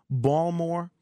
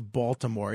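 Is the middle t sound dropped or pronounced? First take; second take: dropped; pronounced. First: The t sound in the middle is dropped. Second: The t sound in the middle is pronounced. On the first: "the way the Baltimoreans pronounce it is Balmore" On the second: "I need that T"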